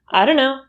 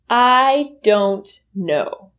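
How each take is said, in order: First: The words run together with a weak vowel. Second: Each word is said fully and clearly. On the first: "reduce to" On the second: "will reduce to"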